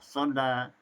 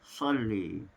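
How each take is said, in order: First: The final vowel is an open a. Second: The final vowel is tilted toward e.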